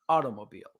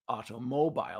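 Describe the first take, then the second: First: The stress falls on the first syllable, au. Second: The stress falls on the final part, mobile. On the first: The thing has become familiar over time. "put the stress on the first syllable or word" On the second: The thing is new and unfamiliar. "we often stress the second word or the second syllable"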